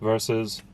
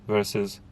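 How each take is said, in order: The two takes are said the same way.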